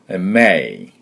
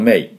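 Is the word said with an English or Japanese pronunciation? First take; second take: English; Japanese. First: It has an English sound with a strong M. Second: It has a Japanese katakana-style sound. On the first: The speaker calls it right. "しっかりM、力を貯めて発音してください" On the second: The speaker calls it wrong. "日本語のMay ではありません"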